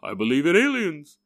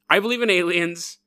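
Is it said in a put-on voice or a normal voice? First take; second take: put-on; normal. First: It is said in a put-on silly voice. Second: It is said in his normal voice.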